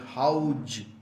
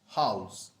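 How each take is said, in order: First: The word ends with a j-like sound. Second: The word ends with a z sound. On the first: The speaker calls it wrong. "that is wrong. There is no J in that spelling" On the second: The speaker calls it right. "the correct uh, pronunciation is house"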